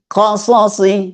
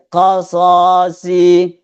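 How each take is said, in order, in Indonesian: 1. Semua vokal dalam kata qasasi dibaca pendek. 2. Satu vokal dalam kata qasasi dibaca panjang. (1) "Jadi misalnya begini" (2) "seperti ada mat tanda panjang padahal tidak ada tanda panjang"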